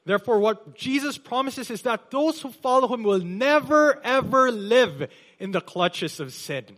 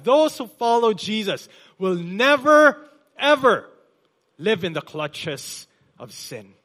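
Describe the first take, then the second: First: "never, ever" high and loud, preaching at full force; emphatic never ever. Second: "never, ever" even louder and higher on the repeat; repeated with more force. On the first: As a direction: lean hard into "never, ever". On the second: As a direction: drive "never, ever" home harder the second time. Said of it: "Let me repeat that". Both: Acted.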